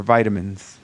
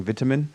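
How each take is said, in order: First: VITAMINS with a long first i, as in "bite"; first syllable of vitamins sounds like "vie"; American pronunciation. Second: VITAMIN with a short first i, as in "bit"; first syllable of vitamin rhymes with "bit"; British pronunciation. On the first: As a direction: say vitamins the American way, VY-tuh-minz. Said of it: "they're, they're vitamins". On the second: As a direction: say vitamin the British way, VIT-uh-min. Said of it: "if I start saying vitamin". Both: Shown as a demonstration.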